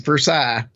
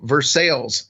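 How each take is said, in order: First: It is said with a French pronunciation. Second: It is said with a local English pronunciation. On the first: This is how the name properly sounds. The speaker calls it right. "And it's Versailles" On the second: This is what the locals call the city. The speaker calls it wrong. "a city that we affectionately call Versailles"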